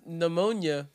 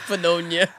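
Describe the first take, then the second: First: The word starts with no P sound. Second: The word starts with a sounded P.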